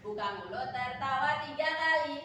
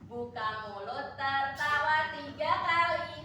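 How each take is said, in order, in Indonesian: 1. Frasa ini diucapkan dengan tempo lebih cepat. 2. Frasa ini diucapkan dengan tempo lebih lambat.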